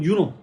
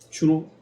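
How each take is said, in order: First: The name begins with a Y sound. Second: The name begins with a J sound.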